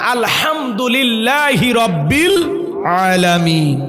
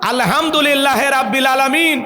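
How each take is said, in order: First: Lillah ends with a linking 'i' before rabbil. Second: Lillah ends without a linking vowel before rabbil. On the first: The speaker calls it right. "তেলাওয়াত সুন্দর করতে হবে" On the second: The speaker calls it wrong. "না"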